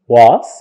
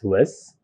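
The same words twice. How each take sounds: First: The word is said fully with a clear vowel. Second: The word is said weakly with a reduced vowel.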